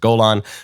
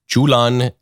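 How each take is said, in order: First: The name is given its English pronunciation. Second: The name is given its Arabic pronunciation. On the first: "in Hebrew and in English, we pronounce it Golan" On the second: "in Arabic, you pronounce Golan Julan"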